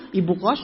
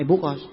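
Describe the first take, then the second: First: "ibu kos" lowish, lifting at the end; rising intonation. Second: "ibu kos" low, dropping at the end; falling intonation. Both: Shown as a demonstration. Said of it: "Beda, kan?".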